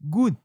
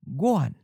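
First: The word has a short 'un' ending. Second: The word has a full 'uan' ending. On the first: "in northern and central Taiwan, guan is usually pronounced as gun" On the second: "So we get guan"

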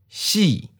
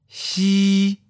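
First: The pitch starts high and falls. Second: The pitch stays level and high. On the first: "high falling. Second tone" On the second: "high flat. First tone"

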